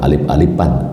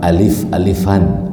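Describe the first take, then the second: First: Alif is said with a p sound. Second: Alif is said with an f sound. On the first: The speaker calls it wrong. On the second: The speaker calls it right. "pakai fa"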